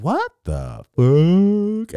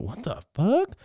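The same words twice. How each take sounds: First: High, loud, hugely stretched words; drawn-out slow-mo cry; slow-motion shock. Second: High-pitched rising question; acted baffled reaction; startled disbelief. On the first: Acted. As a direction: drag each word out in slow motion. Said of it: "I can hear it in slow-mo". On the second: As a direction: blurt it high, in shock. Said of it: "I went".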